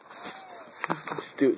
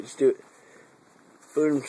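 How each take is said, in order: First: Slow breathy whisper; drawn-out coaxing whisper. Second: Loud sharp urging; sudden loud. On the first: Urging the cat Steve in a slow whisper. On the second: Urging the cat Steve with a sudden loud push. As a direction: snap it out loud. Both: Acted.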